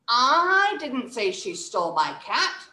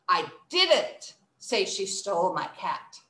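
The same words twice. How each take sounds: First: The stress falls on the word I. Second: The stress falls on the word didn't. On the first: Someone else said it, not me. "Let's stress the first word" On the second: I deny that I ever said it. "so someone thinks I said that. I didn't. I didn't"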